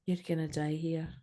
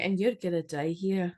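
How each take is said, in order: First: Put-on best Scottish accent. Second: Put-on mixed Scottish and New York accent; Scottish New Yorker. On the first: Host redoing the witch's warning, in a soft Scottish accent. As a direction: say it softly in your best Scottish. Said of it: "doing that in my best Scottish accent". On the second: Host retrying the witch's warning, in Scottish-New York accent. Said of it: "You need to be like a Scottish New Yorker".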